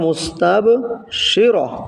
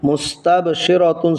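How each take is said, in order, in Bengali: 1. শব্দটি খোলা স্বরধ্বনি 'ra' দিয়ে শেষ হয়। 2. শব্দটি পূর্ণ 'tun' সাইলেবল দিয়ে শেষ হয়। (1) "অক্ফ করার কারণে ... উচ্চারণ হবে মুস্তাবশিরা" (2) "মুস্তাবশিরাতুন ছিল"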